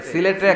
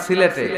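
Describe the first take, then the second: The two takes are said the same way.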